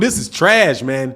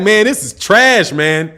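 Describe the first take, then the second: First: Said in the usual way. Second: Slowly, laughing through "trash"; laughing mock quote. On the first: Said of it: "That man had that piece like". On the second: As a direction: chuckle as you drag out "this is trash". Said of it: "you're like".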